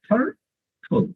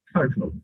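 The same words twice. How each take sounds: First: third, pause, হোল; third and হোল each said on its own; two separate syllables. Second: Said in the usual way. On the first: Shown as a demonstration. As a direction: break third হোল into two beats with a gap. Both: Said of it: "এইখানে দুইটা syllable".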